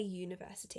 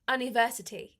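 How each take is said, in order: First: The word starts with a 'y' sound. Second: The word starts with a plain vowel sound. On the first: The speaker calls it right. "because it's pronounced like it's U Y O U" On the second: The speaker calls it wrong. "we don't say university"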